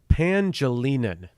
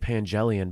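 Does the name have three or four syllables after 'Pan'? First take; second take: four; three. First: The name ends in a longer '-linan' sound. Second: The name ends in a short '-lian' sound. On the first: The speaker calls it right. "I think that's what it is" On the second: The speaker calls it wrong. "I don't think it's actually Pangelian"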